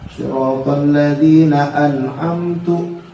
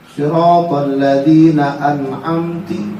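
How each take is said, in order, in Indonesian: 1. Kata terakhir diakhiri vokal u. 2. Kata terakhir diakhiri vokal i. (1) "Didomain jadi an'amtu" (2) "dikasrohin an'amti"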